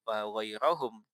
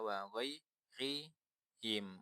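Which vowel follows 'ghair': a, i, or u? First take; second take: a; i. First: The vowel after ghair is a. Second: The vowel after ghair is i. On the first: The speaker calls it wrong. "jelas salah" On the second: The speaker calls it right. "satu-satunya yang memungkinkan dibaca"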